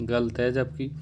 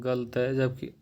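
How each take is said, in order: Both takes have the same delivery.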